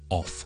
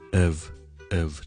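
First: The word is said fully and strongly. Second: The word is said lightly and weakly. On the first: The speaker calls it wrong. "我就唔会咧系将佢读成系好of 嘅" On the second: The speaker calls it right. "而系好轻嘅of 就得啦"

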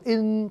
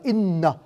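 First: The final n sound is cut off. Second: The final n sound is clearly released. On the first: The speaker calls it wrong. "tức là mình ngừng, mình không có ra chữ n" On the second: The speaker calls it right. "họ đọc là in, mình nghe n rõ ràng"

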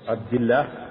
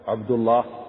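First: The l in Allah is light and thin. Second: The l in Allah is heavy and full. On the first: "ترقى" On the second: "تفخم"

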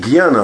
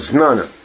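First: The word begins with a 'gy' sound. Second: The word begins with a 'z' sound. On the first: The speaker calls it wrong. "слово не гьяна" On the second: The speaker calls it right. "а знана"

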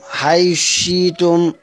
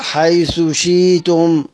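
First: The th sound is merged into the sh. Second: The th sound is pronounced clearly before sh. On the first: "الإدغام مع الإبدال" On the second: "هظهر حيث، مش هضغم الثاء في الشين"

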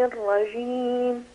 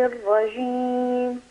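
No difference in how they are said.

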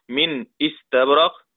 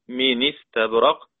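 First: The glottal stop is pronounced after the first word. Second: The glottal stop is dropped and its vowel moves back. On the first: "وعلى ذلك فنقيس من استبرق" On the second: "تبقى من استبرق"

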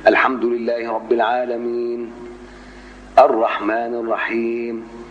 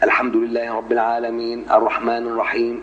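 First: A full stop with a breath follows al-alamin. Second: A brief pause without a breath follows al-alamin. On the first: "الوقفة هيبقى إيه؟" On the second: "ده سكت"

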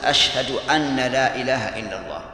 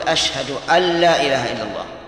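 First: The n after 'ashhadu' is doubled, as anna. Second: The n after 'ashhadu' is single, as an. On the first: The speaker calls it wrong. "أسمع بعض الناس يقول ... وهذا لحن" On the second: The speaker calls it right. "وعلى هذا فقل"

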